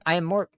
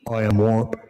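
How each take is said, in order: First: It is said in a normal voice. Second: It is said in a very deep voice.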